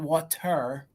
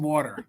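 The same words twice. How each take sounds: First: The middle consonant is a clear T sound. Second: The middle consonant sounds like a D. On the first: This is not how people say it locally. The speaker calls it wrong. "It's not water" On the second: This is how people say it locally. The speaker calls it right. "we say it with a D. Well, around here"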